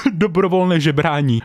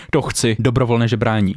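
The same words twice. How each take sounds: First: Laughing. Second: Said in the usual way. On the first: Real, not acted.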